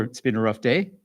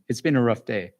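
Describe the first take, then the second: First: "It's been a rough day" with the pitch rising on "day"; said as a question. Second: "It's been a rough day" with the tune falling at the end, a statement; said as a reflection. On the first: Counselor shows parents the question version, rising on day. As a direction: ask it, lifting the end on "day". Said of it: "You can say it as a question". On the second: Counselor shows parents a reflection, falling statement. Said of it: "just as a reflection". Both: Shown as a demonstration.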